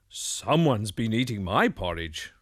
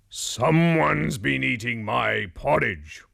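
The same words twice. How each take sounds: First: It is said in a middle-sized bear voice. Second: It is said in a great big bear voice.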